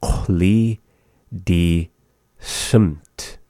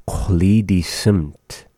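First: "Chuli, di, simt" with a pause after each word. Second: Said in the usual way. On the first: Shown as a demonstration. Teacher breaking down green mountainside for learners, word by word. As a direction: say "Chuli di simt" slowly, one word at a time.

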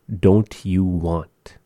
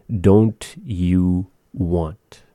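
First: Slow. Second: Very slow, drawn out. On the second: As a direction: stretch "don't you want?" very slowly. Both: Shown as a demonstration.

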